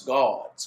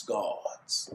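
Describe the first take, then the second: First: Said in the usual way. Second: Gods. ending on a drawn-out hushed S; gods with the final S. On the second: Shown as a demonstration. Preacher showing the congregation the S in gods. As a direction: say gods. and hiss the S at the end. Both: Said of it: "Many of 'em with the S at the end".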